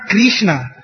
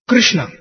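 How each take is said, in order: First: The first syllable sounds like 'kri'. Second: The first syllable does not sound like 'kri'. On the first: The speaker calls it wrong. "Krishna is actually not Krishna. It's not Kri" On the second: The speaker calls it right. "It is Krishna"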